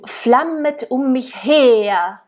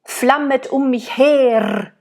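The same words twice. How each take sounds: First: The final R softens into a schwa. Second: The final R is rolled strongly. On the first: The speaker calls it right. "we would do" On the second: The speaker calls it wrong. "instead of"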